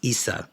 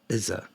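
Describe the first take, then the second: First: The middle consonant is a hissing s sound. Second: The middle consonant is a buzzing z sound. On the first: The speaker calls it right. "that's Issa, my bad" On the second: The speaker calls it wrong. "I said Izza"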